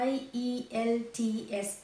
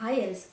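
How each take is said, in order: First: Each letter of the name is said separately. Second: The name is said as a single word. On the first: The speaker calls it wrong. "Spell பண்ணிட்டு இருக்கோம் like" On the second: The speaker calls it right. "That should be pronounced like"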